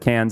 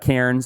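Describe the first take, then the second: First: The name is pronounced the local Australian way. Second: The name is pronounced the way it is spelled. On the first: "is how the Australians say it" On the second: "as it's spelled"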